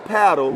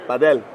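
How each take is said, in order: First: It is pronounced with an American accent. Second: It is pronounced with a Spanish-style accent. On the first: This is how Americans should say it. "No, it's still paddle" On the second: This is how Spanish speakers say it. "when we hear the Spanish say paddle with an accent. They say padel"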